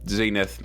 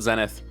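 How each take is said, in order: First: The name has an American pronunciation. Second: The name has a non-American pronunciation.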